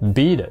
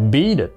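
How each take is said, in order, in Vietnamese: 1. Chữ t nối hai từ là âm d nhẹ, kiểu flap. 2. Chữ t nối hai từ là âm d nhẹ, kiểu flap.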